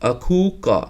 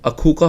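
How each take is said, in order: First: It is said with a drawn-out long vowel. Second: It is said quickly with a short vowel. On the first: The speaker calls it right. "इसे थोड़ा सा खींच कर पढ़ते हैं" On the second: The speaker calls it wrong. "बहुत तेज़ी से बोला जाएगा तो अखू का हो जाएगा"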